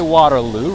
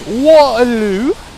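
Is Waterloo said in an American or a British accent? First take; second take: American; British. First: It is said in an American accent. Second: It is said in a British accent. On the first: "we say Waterloo" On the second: "You guys are like Waterloo. I love it"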